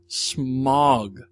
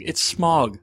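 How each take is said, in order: First: Smaug said smog, with an aw sound; correct pronunciation. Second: Smaug said smowg, with an ow sound; film pronunciation. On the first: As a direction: give Smaug the American aw. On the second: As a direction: say Smaug the way the movie does. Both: Shown as a demonstration. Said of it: "pronunciation of Smaug".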